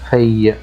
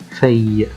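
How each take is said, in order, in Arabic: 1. تنتهي الكلمة بانزلاق شبيه بصوت y. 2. تنتهي الكلمة بانزلاق شبيه بصوت y.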